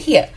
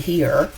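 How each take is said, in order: First: Here is said in a New Orleans accent. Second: Here is said in a general standard accent. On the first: "say here" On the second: "we don't say here"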